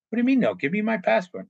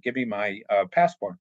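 First: Indignant protest. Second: Said in the usual way. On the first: Retold or imitated. Worker protesting to his manager, higher and indignant. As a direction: demand it back, disbelieving and higher.

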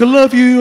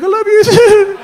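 First: Plain-pitched, loud declaration; serpent's farewell. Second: High, loud, drawn-out declaration; gushing reply. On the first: Serpent dropping him off, steady loud farewell. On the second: Teller parting from serpent, high gushing reply. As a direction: squeal it back adoringly. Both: Retold or imitated.

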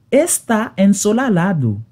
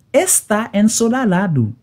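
The two takes are said the same way.

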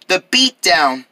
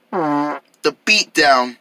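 First: Said in the usual way. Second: Slow ominous drawl. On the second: Acted. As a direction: draw out the beatdown very slowly.

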